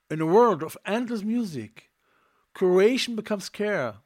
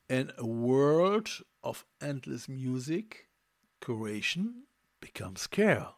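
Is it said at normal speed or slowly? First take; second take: normal speed; slowly. First: It is said at normal speed. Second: It is said more slowly.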